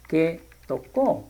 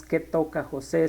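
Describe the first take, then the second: First: Tocó said slowly with a rising, stressed final syllable. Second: Said in the usual way. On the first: Shown as a demonstration. Teacher correcting the tense, stressing tocó slowly. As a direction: lean on the ó of tocó, unhurried. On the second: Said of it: "No diríamos".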